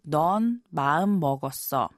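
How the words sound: The voice falls at the end like a statement. It reminds someone that they have made up their mind. The speaker calls it wrong. "I guess you could say, potentially"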